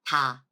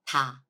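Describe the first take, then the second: First: It begins with a soft, light T-like sound. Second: The same.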